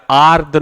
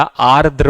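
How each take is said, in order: First: आर्द्र said "aard", final r missing; wrong form "aard". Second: आर्द्र said slowly "aar-dra", both r's sounded; correct form "aardra". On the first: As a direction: end आर्द्र on the d. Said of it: "आर्द्र नहीं होता". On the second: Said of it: "आर्द्र होता है". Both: Shown as a demonstration.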